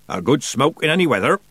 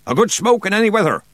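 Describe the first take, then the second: First: Lilting, reassuring sailor; soothing. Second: High, louder sailor's order; commanding. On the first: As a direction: soothe with a sing-song line. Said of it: "he said soothingly". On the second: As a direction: bellow it as an urgent order. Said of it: "he commanded". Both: A narrator's reading.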